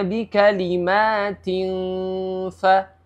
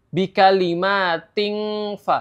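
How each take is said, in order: First: The nasal hum glides smoothly into the f. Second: The nasal hum is a hard ng sound. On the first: The speaker calls it right. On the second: The speaker calls it wrong. "jangan membacanya seperti N G ... itu salah"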